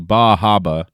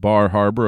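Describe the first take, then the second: First: It is said Maine-style, with the R sounds dropped. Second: It is said with the R sounds pronounced.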